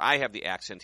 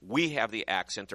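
First: I leaned on, the rest plain; stress on I. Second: WE leaned on, the rest plain; stress on WE. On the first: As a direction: push the word I as if it's his own. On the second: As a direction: push the word We as if it's theirs. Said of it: "although he'll say". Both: Retold or imitated.

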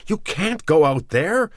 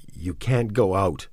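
First: Sudden high, loud startled cry; startled man shouting to stop her; surprised. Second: Said in the usual way. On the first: A narrator's reading. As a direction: blurt it out in shock, much higher. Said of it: "he said, surprised". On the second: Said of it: "he said again".

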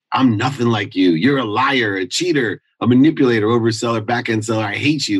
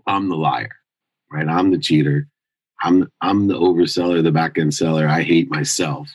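First: Reliving the fight with dad, angry; retold angry outburst. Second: Admitting his own faults, somber. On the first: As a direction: throw each insult at him. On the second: Real, not acted. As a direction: turn the insults on yourself, heavy. Quiet confession echoing earlier insults.

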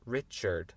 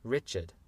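First: "Richard" the American way, both Rs sounded; American "Richard" with a full R before the D; American accent. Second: "Richard" British-style, second R dropped; British "Richard" ending in "-chud"; rough British accent. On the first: Teacher contrasting accents, American "Richard". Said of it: "avec mon accent américain". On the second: Teacher trying a shaky England accent, British "Richard". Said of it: "un peu pourri d'anglais d'Angleterre". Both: Shown as a demonstration.

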